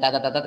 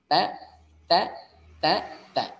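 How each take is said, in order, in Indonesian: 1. Suku katanya tersambung tanpa jeda. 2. Setiap suku kata dipisahkan dengan jeda. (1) "Jangan ... nggak boleh" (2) "dipotong-potong cara bacanya"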